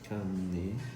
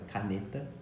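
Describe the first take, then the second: First: The first vowel is closed and nasalized. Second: The first vowel is open and not nasalized. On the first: This is how speakers from Rio say it. "o sotaque carioca ... o A ... seria um pouco mais nasalizado, seria um pouco mais fechado" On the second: This is not how speakers from Rio say it. "não seria tão aberto que nem eu tô fazendo agora ... não é assim que as cariocas falam"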